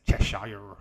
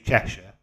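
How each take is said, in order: First: It is said in an American accent. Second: It is said in a British accent. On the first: The speaker calls it wrong. "Americans say Cheshire" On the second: The speaker calls it right. "We say Cheshire"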